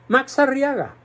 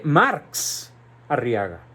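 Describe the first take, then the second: First: Said in the usual way. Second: "Marx" drawn out slowly, then a pause before "Arriaga"; slow, weighty "Marx", set apart from the surname; stress on Marx. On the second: Shown as a demonstration. Commentator pointing up the curious name, heavy stress on "Marx".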